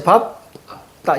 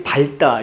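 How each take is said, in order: First: 밥, 따 with ㅂ kept and ㄹ dropped; correct pronunciation. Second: 밟다 said as 발따, keeping the ㄹ; common mispronunciation. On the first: Teacher showing students the required reading, correct pronunciation. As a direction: say 밥, pause, then tense 따. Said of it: "어떻게 돼야 돼". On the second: Teacher showing how most students misread it, mispronunciation. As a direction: say 밟다 wrongly with an audible ㄹ, 발따. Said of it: "아이들이 밟다 이렇게 우리가 발음한다는". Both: Shown as a demonstration.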